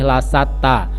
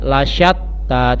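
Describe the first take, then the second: First: The consonant is a plain s sound. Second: The consonant is a breathy sh sound. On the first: The speaker calls it wrong. "tidak boleh lasatta" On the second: The speaker calls it right. "ada huruf shin, jadi harus sedikit mulutnya didesahkan"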